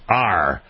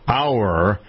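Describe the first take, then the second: First: The word sounds like the letter R. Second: The word sounds like 'hour', with a glide. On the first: The speaker calls it wrong. "It's not an R like the letter of the alphabet" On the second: The speaker calls it right. "Our auto expert versus R"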